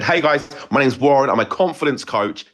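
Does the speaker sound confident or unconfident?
confident. It sounds assured and full of confidence.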